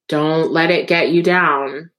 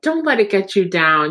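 First: It is said heavily and wearily, like a warning. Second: It is said brightly, like an upbeat pep talk.

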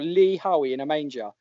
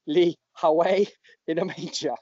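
First: It is said in a neutral accent. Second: It is said in a northeast English accent. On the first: "I'll just say it without the accent" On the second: "you've got to say it in a northeast accent"

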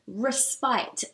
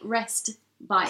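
First: It sounds like one word, not rest bite. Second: It sounds like two words, rest and bite. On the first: The speaker calls it right. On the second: The speaker calls it wrong.

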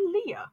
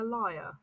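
First: The vowel sounds like 'ear', one syllable. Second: The vowel sounds like 'eye', two syllables. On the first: "Would you pronounce that a leer?" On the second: "I consider it to be a liar"

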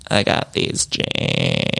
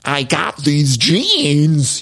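First: The voice is creaky, with vocal fry. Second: The voice is clear, without any creak. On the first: "the vocal fry" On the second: "I was used to her saying"

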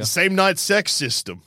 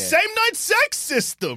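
First: It is read out in a plain, flat tone. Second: It is said in an excited, enthusiastic tone.

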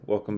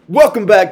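First: The voice is flat, low and monotonous. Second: The voice is lively, pumped and enthusiastic. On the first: The speaker calls it wrong. "Don't sound so melancholy" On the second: The speaker calls it right. "Be enthused"

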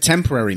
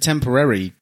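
First: The stress falls on the usual syllable. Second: The stress falls on an unusual syllable. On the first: The speaker calls it right. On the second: The speaker calls it wrong.

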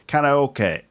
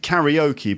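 First: The word has a Japanese pronunciation. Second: The word has an English pronunciation. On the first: "but in Japan it's karaoke" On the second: "We pronounce it karaoke"

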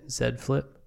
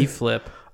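First: The letter Z is said as zed. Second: The letter Z is said as zee.

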